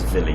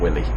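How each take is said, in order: First: The name is pronounced the German way. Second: The name is pronounced the English way. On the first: The speaker calls it right. "I think that's German, hence me pronouncing it as Willy" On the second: The speaker calls it wrong. "not Willy"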